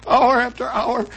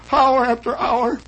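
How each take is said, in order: Both takes have the same delivery.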